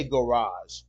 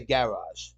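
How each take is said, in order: First: "garage" the American way, guh-RAHZH; weak first vowel in "garage", stress on the end; American pronunciation. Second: "garage" the British way, GA-rahzh; full short A opening "garage", as in cat; British pronunciation. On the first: Husband showing how we say it, American "garage". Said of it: "We say garage". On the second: Husband showing how they say it, British "garage". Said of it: "They say garage". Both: Shown as a demonstration.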